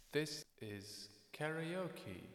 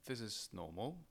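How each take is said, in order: First: Karaoke echo effect; sing-along reverb on the voice. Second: Said in the usual way. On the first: Shown as a demonstration.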